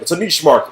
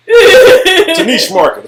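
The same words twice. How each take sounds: First: Said in the usual way. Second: High, slow, laughing delivery; a giggly, drawn-out punchline. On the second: Real, not acted. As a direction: squeeze it out through laughter. Repeated line, high slow laugh.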